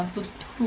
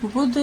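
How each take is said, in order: First: बुद्धू with a long doubled dh and long final u, very soft and rising; wrong reading buddhu. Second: बुद्ध short and clipped, ending on the consonant with no final vowel; correct Buddh. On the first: Teacher testing the misread quiz word, soft rising बुद्धू. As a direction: try बुद्धू as a quiet questioning wrong reading. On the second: Teacher correcting the quiz word to बुद्ध, short and crisp. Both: Shown as a demonstration. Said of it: "बुद्धू तो ये नहीं है".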